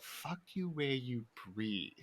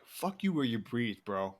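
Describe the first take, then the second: First: Slow, softer puzzled repeat; Chris D'Elia. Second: Said in the usual way. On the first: Retold or imitated. Comedian repeats the guy's odd insult, slow and quiet. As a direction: echo it slowly and quietly, drawing out each word. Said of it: "Chris was like". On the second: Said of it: "he was like".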